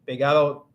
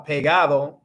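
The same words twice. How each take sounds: First: The d in the ending is dropped. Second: The ending is said in full with a d. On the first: This is how it is said in the Dominican Republic. "they'll cut off like the A D O" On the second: This is the standard way to say it. "instead of like uh, pegado"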